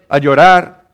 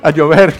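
First: The slip "llorar" said by mistake, a bit louder; "llorar" blurted as if it meant rain; wrong word slip. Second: "llover" said firmly as the fix, a bit louder; self-correction to "llover"; corrected word. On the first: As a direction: misspoken "llorar", to be corrected. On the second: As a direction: correct yourself: "llover", with a laugh just before. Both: Real, not acted. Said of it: "No, no llorar".

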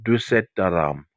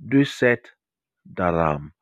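First: Said in the usual way. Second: "Duset", a clear pause, then "Daram"; word-by-word pronunciation. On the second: Shown as a demonstration. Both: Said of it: "the word I learned was".

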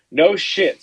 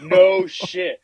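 First: Blurted out in disbelief; a loud, stunned no shit; louder amazed exclamation. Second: Loud, stunned no shit; reliving the shock out loud; louder retold amazement; retold disbelief. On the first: Real, not acted. Stunned at dead goose. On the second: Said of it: "And I'm like".

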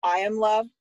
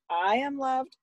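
First: Higher, lightly voiced kid; firm little prompt, imitating a child; imitated child leading. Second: Much higher sing-song repeat; retold parent playing along, pitched up; obedient echo. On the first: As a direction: lead the affirmation like a preschooler. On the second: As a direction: echo the child's affirmation dutifully. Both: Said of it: "You need to repeat it".

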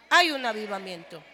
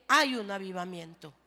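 First: Hay un avivamiento declared much louder, HAY hit hard; shouted Hay un avivamiento; louder emphatic repeat. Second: Said in the usual way. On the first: Shown as a demonstration. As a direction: proclaim Hay un avivamiento with full force.

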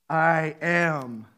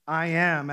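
First: "I am" dit grave et solennel, comme le nom de Dieu; weighty I am. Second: "I am" dit lentement et appuyé; stress on I am. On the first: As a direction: pose "I am" comme un titre divin. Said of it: "as in". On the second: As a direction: insiste sur "I am". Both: Shown as a demonstration.

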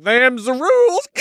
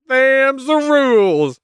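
First: Much higher, odd drawling voice; smug Hades. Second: Much higher, slow goofy drawl; smug Zeus. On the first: Hades telling Demeter the rules in a goofy high voice. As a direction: shrug it off smugly. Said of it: "he's like". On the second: Zeus settling the dispute in a slow goofy high voice. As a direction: lay down the law lazily. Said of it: "Zeus is like". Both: Retold or imitated.

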